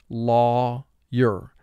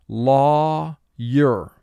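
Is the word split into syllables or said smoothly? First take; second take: split; split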